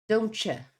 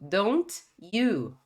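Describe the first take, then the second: First: The t and y merge into a ch sound. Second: The t and y sounds are kept separate. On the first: "Vira esse som de ch" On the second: "esse famoso caso aqui do don't you"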